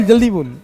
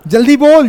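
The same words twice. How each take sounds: First: Said in the usual way. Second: Higher, louder impatient push; teacher loudly urging a student to answer. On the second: Real, not acted. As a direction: hurry her up with a raised voice.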